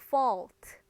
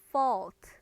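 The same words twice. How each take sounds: The two takes are said the same way.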